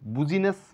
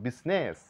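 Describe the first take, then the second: First: The word has three syllables, starting with 'boo'. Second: The word has two syllables. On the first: The speaker calls it wrong. "বুজিনেস বা বিজিনেস না বলে" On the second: The speaker calls it right. "আমরা বলবো বিজনেস"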